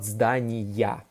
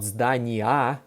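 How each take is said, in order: First: The word ends in a 'ya' sound. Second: The word ends in a plain 'a' sound. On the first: The speaker calls it right. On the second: The speaker calls it wrong.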